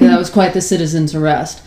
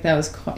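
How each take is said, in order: First: It is said in a tough cop manner. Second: It is said in a relaxed, casual manner.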